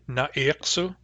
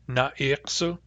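First: The first vowel is a short a sound. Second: The same.

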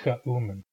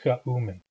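Both takes have the same delivery.

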